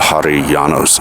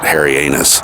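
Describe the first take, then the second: First: The name is said as one smooth word. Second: The name is split like 'Harry' and 'anus'. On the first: The speaker calls it right. "I think that's how you're supposed to pronounce it" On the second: The speaker calls it wrong. "I can only ever pronounce it Harry Anus"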